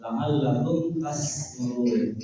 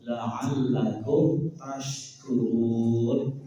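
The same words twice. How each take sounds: First: "tashkurun" dengan sin tipis, bunyi salah. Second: "tashkurun" dengan shin tebal, pelan. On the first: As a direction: ucapkan "s" tipis seperti keliru. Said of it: "tapi pakai sin". ("tashkurun" dibaca tipis, contoh salah) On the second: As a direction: tekankan "sh" tebal pada "tashkurun". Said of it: "shin tebal". ("tashkurun" shin tebal dan pelan) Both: Shown as a demonstration.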